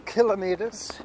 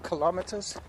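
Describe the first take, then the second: First: "kilometers" stressed on KIL; stress on first syllable. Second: "kilometers" stressed on LOM; stress on second syllable. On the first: Offering the other way to say it, "kilometers" as KIL-uh-mee-ters. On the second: Parent asking child for the conversion, "kilometers" as kuh-LOM-uh-ters. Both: Shown as a demonstration. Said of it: "Some people say kilometers".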